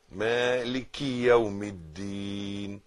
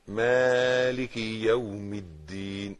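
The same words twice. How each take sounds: The two takes are said the same way.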